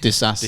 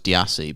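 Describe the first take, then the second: First: The name has an s sound in the middle. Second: The name has no s sound in the middle. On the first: The speaker calls it right. "it's got an S in it, so it's Disassi" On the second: The speaker calls it wrong. "I always thought it was Diassi"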